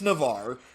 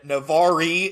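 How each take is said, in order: First: The name is said plainly without an added ending. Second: The name is over-pronounced with an added ending. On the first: The speaker calls it right. "It's Navar" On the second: The speaker calls it wrong. "I've put up with you pronouncing"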